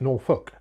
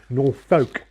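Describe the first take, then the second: First: The second syllable sounds like 'fork'. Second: The second syllable sounds like 'folk'. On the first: It is how locals say it. "everybody around here pronounces it Norfolk, fork" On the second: It follows the written spelling. "as in folk"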